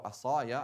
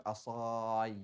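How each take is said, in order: First: Asaya in three light syllables, ending on ya; asaya, crisp ya ending; easy right form. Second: Asai dragged out, ending on a drawn-out ai; Asai, overlong ending; awkward wrong form. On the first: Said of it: "I can easily, like, pronounce that". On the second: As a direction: show Asai as clumsy and too long. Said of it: "Like, it's too long". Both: Shown as a demonstration.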